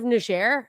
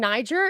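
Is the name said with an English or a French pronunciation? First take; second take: French; English. First: The name is said with a French pronunciation. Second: The name is said with an English pronunciation. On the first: "Are you literally defending the French colonists?" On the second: "correct me for saying Niger"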